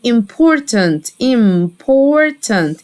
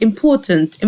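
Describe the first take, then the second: First: "important" drawn out syllable by syllable; slow pronunciation demo. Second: Said in the usual way. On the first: Shown as a demonstration. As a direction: stretch the middle of "important" for learners. Teacher models word slowly, then normally.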